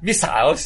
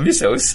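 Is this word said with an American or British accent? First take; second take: British; American. First: It is said with a British accent. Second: It is said with an American accent.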